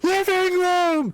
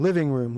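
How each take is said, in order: First: It is screamed very loudly. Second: It is said at a normal volume.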